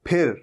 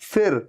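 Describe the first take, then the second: First: The first sound is made with both lips together. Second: The first sound uses upper teeth on lower lip. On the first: The speaker calls it right. "ये क्या है? फिर।" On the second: The speaker calls it wrong. "जहां पर ऊपर के दांत नीचे के लिप पे टच हो, फिर नहीं है"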